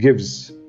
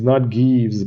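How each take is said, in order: First: The word is said short and crisp. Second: The word is said long and drawn out. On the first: The speaker calls it right. "Short and crisp" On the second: The speaker calls it wrong.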